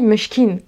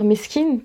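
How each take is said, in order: First: The consonant before the k is an sh. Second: The consonant before the k is a plain s. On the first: "il dit meshkin" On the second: This is the usual Arabic form. "sa façon de dire meskin, qui veut dire le pauvre en arabe"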